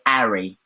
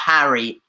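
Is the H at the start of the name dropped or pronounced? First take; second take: dropped; pronounced. First: The name starts without an H sound. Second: The name starts with a clear H sound. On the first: This is how they say it. "They sometimes don't even pronounce the H. They say Harry" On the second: This is how they do not say it. "not Harry"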